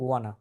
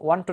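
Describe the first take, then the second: First: The two words are blended into one short word. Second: Both words are said fully and separately. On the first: The speaker calls it right. "আপনাকে বলতে হবে" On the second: The speaker calls it wrong. "ওয়ান টু না, অন টু বলা যাবে না"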